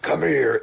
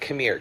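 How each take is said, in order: First: It is said in an exaggerated, caricatured way. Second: It is said subtly, like a thought slipping out.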